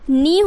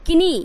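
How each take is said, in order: First: No k sound is heard before the n. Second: A k sound is heard before the n. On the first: The speaker calls it right. "जैसे ही आप के को सब में silent करोगे" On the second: The speaker calls it wrong. "अगर के का उच्चारण आप करते हैं"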